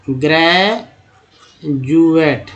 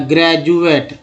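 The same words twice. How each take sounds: First: ग्रेजुएट drawn out very slowly, broken into ग्रे... जुएट; syllable by syllable. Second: Said in the usual way. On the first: Shown as a demonstration. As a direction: stretch ग्रेजुएट, pause before the J sound. (ग्रेजुएट को तोड़कर, खींचकर धीरे-धीरे: ग्रे... जुएट) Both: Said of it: "डी को ज बोला जा रहा है".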